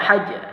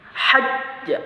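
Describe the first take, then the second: First: The doubled consonant is released without any holding. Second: The doubled consonant is held briefly before release. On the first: The speaker calls it wrong. "Tidak seperti biasa hajj, tapi dia ditahan" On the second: The speaker calls it right. "kita tahan"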